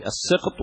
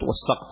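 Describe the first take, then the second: First: "السقط" said as as-siqt; short "i" after the s in "السقط"; kasra on the sin. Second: "والسقط" said as was-saqt; short open "a" after the s in "والسقط"; fatha on the sin. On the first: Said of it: "بعضهم يقول الكسر". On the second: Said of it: "الفتح". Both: Shown as a demonstration.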